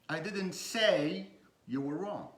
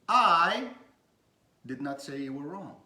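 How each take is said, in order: First: The word say carries the stress. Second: The word I carries the stress. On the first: It was expressed in another way. "It means I didn't say it that way. I said it a different way" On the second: Someone else said it. "I did not say it was not me. It was not me"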